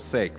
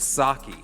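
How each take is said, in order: First: The word rhymes with 'bake', as in 'heaven's sake'. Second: The word does not rhyme with 'bake'. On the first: The speaker calls it right. "like for heaven's sake" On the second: The speaker calls it wrong. "some people think it's sake. It's not sake"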